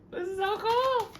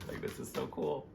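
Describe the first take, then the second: First: Loud, very high, stretched squeal; excited squeal. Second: Said in the usual way. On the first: Real, not acted. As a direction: squeal it out with delight. Delight repeated as loud squeal.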